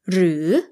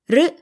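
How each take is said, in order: First: The word is said in its fuller formal form. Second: The word is said in its casual everyday form.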